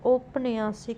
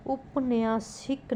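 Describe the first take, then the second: First: औपन्यासिक opening on au; correct pronunciation. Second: उपन्यासिक opening on short u; wrong pronunciation. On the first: Teacher giving the correction, औपन्यासिक starting "aup". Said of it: "होगा". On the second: Teacher showing a spelling error, उपन्यासिक starting "up". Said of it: "नहीं". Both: Shown as a demonstration.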